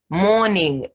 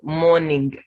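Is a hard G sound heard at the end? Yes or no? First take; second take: no; yes. First: It ends in ng with no hard G. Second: It ends with an audible hard G. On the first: The speaker calls it right. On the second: The speaker calls it wrong. "not morning"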